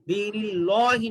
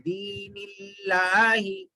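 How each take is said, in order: First: The L in Allahi is heavy and thick. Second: The L in Allahi is light and thin. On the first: The speaker calls it wrong. "दीनिल्लाहि नहीं पढ़ेंगे" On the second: The speaker calls it right. "लाम को बारीक पढ़ेंगे"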